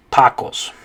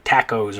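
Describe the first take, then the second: First: Tacos as TAH-kohs; correct Spanish pronunciation. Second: Tacos as TACK-ohz; anglicized mispronunciation. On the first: Teacher gives the correct way, tacos said TAH-kohs. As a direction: say tacos with an open ah. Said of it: "the correct way to say it in Spanish". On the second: Teacher offers English guess, tacos said TACK-ohz. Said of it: "or something like that". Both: Shown as a demonstration.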